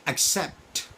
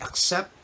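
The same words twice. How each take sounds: First: "accept" with a clear t at the end; final t. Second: "accept" ending on p, the t left off; no final t. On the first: Teacher demos the correct "accept" with a crisp final t. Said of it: "you say the t". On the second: Teacher demos the wrong "accept", t left off. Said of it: "instead of the p". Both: Shown as a demonstration.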